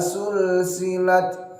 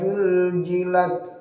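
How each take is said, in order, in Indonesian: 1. Kata ini dimulai dengan bunyi s. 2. Kata ini dimulai dengan bunyi j. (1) "jangan sampai dirubah menjadi huruf sin" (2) "dirubah ini yang paling sering menjadi huruf jim"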